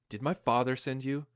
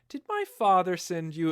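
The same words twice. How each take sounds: First: It is said in a plain, earnest way. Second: It is said in a coy, teasing way.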